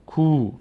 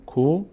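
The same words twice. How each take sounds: First: "کو" as a long koo; long vowel. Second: "کو" as a short ko; brief o in "کو"; short vowel. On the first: Teacher contrasting the two vowels, long "کو" as koo. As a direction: stretch the oo in "کو". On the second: Teacher contrasting the two vowels, short "کو" as ko. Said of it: "فرق بین ضمه و صدای کشیدهٔ". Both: Shown as a demonstration.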